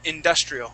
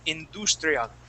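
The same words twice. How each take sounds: First: The word is said with an English accent. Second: The word is said with a Spanish accent. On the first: The speaker calls it right. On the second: The speaker calls it wrong.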